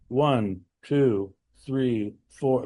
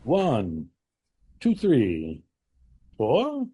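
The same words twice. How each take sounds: First: The numbers are flat in pitch and energy. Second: The numbers vary in pitch, energy and pausing. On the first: The speaker calls it wrong. "literally one note shit. ... No variety of tone, no variety of energy" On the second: The speaker calls it right. "the power of the potential energy of a pause between the numbers"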